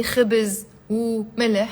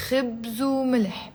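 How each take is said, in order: First: خبز وملح unlinked, "khibiz u mileh"; separated words. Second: خبز وملح run together, "khibzu-mileh"; linked as one. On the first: Teacher shows what she won't say, words unlinked as "khibiz, u, mileh". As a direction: keep خبز apart from وملح, with a helping vowel in khibiz. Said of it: "I'm not gonna say". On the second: Teacher models the expression for learners, linked "khibzu mileh". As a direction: join the u onto خبز to make "khibzu". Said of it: "gonna make it one syllable". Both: Shown as a demonstration.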